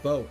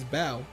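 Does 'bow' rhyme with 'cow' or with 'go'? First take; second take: go; cow. First: The vowel rhymes with go. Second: The vowel rhymes with cow. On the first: The speaker calls it wrong. "and not bow, as in bow and arrow" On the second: The speaker calls it right. "as in take a bow"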